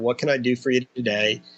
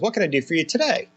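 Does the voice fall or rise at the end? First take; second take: fall; rise. First: The voice stays flat or falls at the end. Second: The voice rises at the end.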